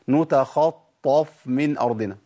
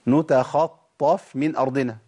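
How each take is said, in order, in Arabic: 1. صوت الفاء ثقيل ومفخم. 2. صوت الفاء خفيف ورقيق. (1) "لا ينفعش" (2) "ده الصحيح"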